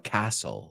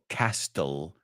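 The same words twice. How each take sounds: First: The t sound is left silent. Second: The t sound is clearly pronounced. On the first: The speaker calls it right. "sino castle. La T es muda" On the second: The speaker calls it wrong. "No digo castle"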